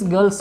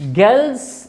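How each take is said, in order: First: The r is sounded and the ending is s. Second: The r is silent and the ending is z. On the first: The speaker calls it wrong. "It's wrong" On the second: The speaker calls it right. "आर silent है, एस जेड पढ़ा जाएगा"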